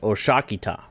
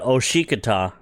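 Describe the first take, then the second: First: The second vowel is an 'a' sound. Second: The second vowel is an 'i' sound. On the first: The speaker calls it right. "it's Oshakita" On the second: The speaker calls it wrong. "So it's not Oshikita"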